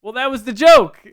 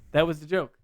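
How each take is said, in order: First: Exasperated outburst, loud and higher; too loud. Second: Said in the usual way. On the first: Real, not acted. Host protests to co-host that the offensive line was a joke, too loud. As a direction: blurt it out far too loudly. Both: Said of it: "I said that too loud".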